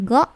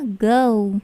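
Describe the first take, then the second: First: "go" cut short as "goh"; short "go" with no glide; wrong pure O. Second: "Go" gliding to "gou"; long "Go", lips closing to a U; English diphthong O. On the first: Teacher showing students wrong go, short pure vowel. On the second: Teacher modelling Go for students, gliding vowel. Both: Shown as a demonstration. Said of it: "bukan go".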